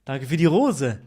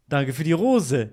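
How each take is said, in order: Both takes have the same delivery.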